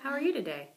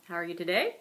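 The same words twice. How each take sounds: First: The pitch falls at the end. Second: The pitch rises at the end. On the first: "Pitch drops" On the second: "We don't do that"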